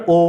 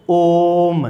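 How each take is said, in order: First: Said in the usual way. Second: ओम with the ओ held about three times its normal length; drawn-out vowel. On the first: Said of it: "एक तो बोलते हैं अपन ओ". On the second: Shown as a demonstration. Teacher showing students a prolonged vowel: ओम with the ओ drawn out long. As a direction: stretch the ओ of ओम into a long, sustained hum. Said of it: "ओम का उच्चारण करते हैं तो सामान्य से तिगुना समय लग रहा है".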